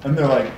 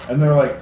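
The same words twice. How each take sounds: The two takes are said the same way.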